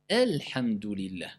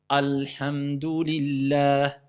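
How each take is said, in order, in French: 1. La voyelle d'ouverture est fine et légère, comme 'e'. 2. La voyelle d'ouverture est pleine et lourde, comme 'a'. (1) "c'est E, c'est pas A" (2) "J'ai commencé en disant A ou E. Erreur alors"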